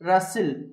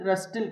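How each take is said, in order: First: The t sound is not pronounced. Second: A t sound is pronounced in the middle. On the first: The speaker calls it right. "టీ silent" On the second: The speaker calls it wrong. "కాదండి"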